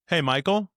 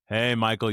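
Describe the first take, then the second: First: The greeting sounds like a question will follow. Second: The greeting sounds knowing and teasing. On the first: The speaker is about to ask something. "it sounds like there's about to be a question there" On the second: The speaker caught him doing something. "you sly dog"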